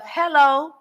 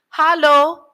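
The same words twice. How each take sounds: First: Hello is said in a standard English accent. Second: Hello is said in a local African English accent. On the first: This is the usual way elsewhere. "instead of" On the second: This is how the locals say it. "how they speak English to you"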